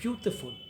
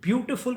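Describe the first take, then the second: First: It is spoken with a regional accent. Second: It is spoken with a plain accent.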